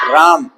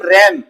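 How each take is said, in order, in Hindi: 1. स्वर एक लंबी खुली 'aa' ध्वनि है। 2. स्वर 'cat' जैसा सपाट 'a' है। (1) "हिंदी वाली इंग्लिश में इसको राम" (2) "इसको इंग्लिश वाली इंग्लिश में हम पढ़ते हैं रैम"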